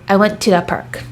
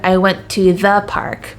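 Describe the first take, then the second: First: The word 'the' is shortened and blended in. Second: The word 'the' is clearly enunciated. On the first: The speaker calls it right. "I would say" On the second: The speaker calls it wrong. "I'm not saying"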